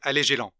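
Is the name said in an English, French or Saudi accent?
French. The name is said with a French accent.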